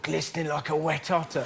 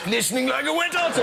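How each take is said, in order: First: It is spoken in a Cockney accent. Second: It is spoken in a posh accent. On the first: It sounds horrendous this way. "if you hear that in a Cockney accent, that sounds horrendous" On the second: Only the original speaker could make it sound good.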